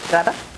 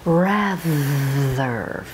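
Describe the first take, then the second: First: The middle th sound is quick and short. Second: The middle th sound is long and airy. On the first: The speaker calls it wrong. "If you say rather, you're likely to mispronounce it" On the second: The speaker calls it right. "more voice time, and more airflow. Rather, feeling the air"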